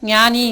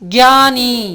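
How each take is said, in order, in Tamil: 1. இந்த வார்த்தை 'ny' ஒலியில் தொடங்குகிறது. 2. இந்த வார்த்தை 'gy' ஒலியில் தொடங்குகிறது. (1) "ஹிந்தி உச்சரிப்பு என்னென்னா ஞானி கிடையாது" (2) "ஹிந்தி உச்சரிப்பு"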